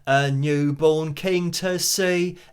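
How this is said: It is said in a broad London accent. "that kind of, you know, accent that he has"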